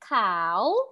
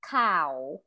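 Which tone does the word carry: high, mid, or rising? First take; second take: rising; mid. First: The word is said on a rising tone. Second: The word is said on a level mid tone. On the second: It means news. "in the mid tone is cow"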